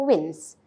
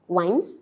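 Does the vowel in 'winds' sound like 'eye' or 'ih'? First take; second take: ih; eye. First: The vowel is a short 'ih' sound. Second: The vowel is a long 'eye' sound. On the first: The speaker calls it right. "So it should be mines and also wins" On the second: The speaker calls it wrong. "Do you read it as mines and also wines? Is that correct? Of course not"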